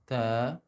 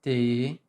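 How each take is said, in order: First: The vowel is said with unspread, unsmiling lips. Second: The mouth barely opens, so the vowel nearly vanishes. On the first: "without smiling like ta" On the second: "without opening like t"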